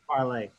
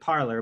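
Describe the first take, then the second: First: The word ends with an 'ay' sound. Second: The word ends with an 'or' sound. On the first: The speaker calls it right. "But it's it's parlay" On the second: The speaker calls it wrong. "I think most people pronounce it parlor"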